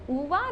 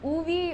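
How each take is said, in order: First: The name sounds like 'Uva', ending in 'ah'. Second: The name sounds like 'Uvi', ending in 'ee'. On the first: The speaker calls it right. "it's pronounced as Uva" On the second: The speaker calls it wrong. "or Uvi"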